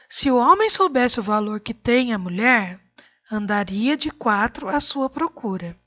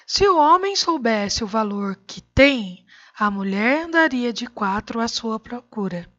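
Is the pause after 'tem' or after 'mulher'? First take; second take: after mulher; after tem. First: The pause comes after the word 'mulher'. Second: The pause comes after the word 'tem'.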